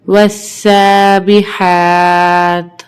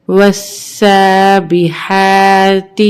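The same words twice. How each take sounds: First: والسابحات with long held "aa", stopped on bare t; waqf pause form. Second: والسابحات recited with a short final "ti"; full ending, no pause form. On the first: Teacher showing waqf, والسابحات ending in plain "t". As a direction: stretch والسابحات, then close on vowelless "t". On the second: Teacher reading on before waqf, والسابحات ending in "ti". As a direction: voice the last letter of والسابحات as "ti". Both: Shown as a demonstration. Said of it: "وقفاً".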